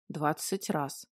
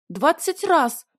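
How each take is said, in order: First: Low, hushed seething; contained rage. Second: High, loud triumphant squeak; squeaky voice. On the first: Dragon answering the heroine's reproach, low contained rage. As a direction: say it low and quiet, holding rage in. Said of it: "краснея от ярости, проговорил дракон". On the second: Heroine summing up her grievance, loud squeaky voice. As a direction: sum up in a ringing squeal. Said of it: "ладно, пусть будет писклявым голосом". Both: A narrator's reading.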